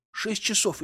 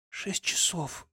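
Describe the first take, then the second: First: Higher, tense reproach, hoarse edge; pleading and upset, pitched up. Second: Rough, breathless hoarse whisper; husky and drained, barely voiced. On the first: Acted. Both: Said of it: "Голос у неё был хриплым".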